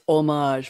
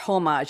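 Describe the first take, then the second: First: The word starts without any h sound. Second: The word starts with an audible h sound. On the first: The speaker calls it right. "you're not supposed to pronounce the H, very French" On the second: The speaker calls it wrong. "It's not homage"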